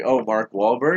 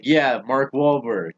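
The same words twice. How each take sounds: First: "Mark Wahlberg" rising as a question; retold question. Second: Slow "Mark Wahlberg" falling at the end; retold confirmation. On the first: Checking which actor a classmate means, rising question on "Mark Wahlberg". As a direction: ask "Mark Wahlberg" with a lift at the end. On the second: Classmate confirms the actor, slow falling "Mark Wahlberg". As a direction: confirm "Mark Wahlberg" slowly, settling downward.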